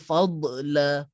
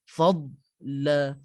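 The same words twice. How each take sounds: First: The d sound is released with a bouncing echo. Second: The d sound is pressed firmly without bouncing. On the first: The speaker calls it wrong. "Akan ada yang baca fadla, fad, d. Ah, d tu tak ada untuk huruf dad" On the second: The speaker calls it right. "kena tekan"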